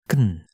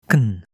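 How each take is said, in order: Both takes have the same delivery.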